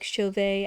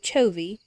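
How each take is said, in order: First: The name ends with a fancy accented E sound. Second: The name ends with a plain E sound.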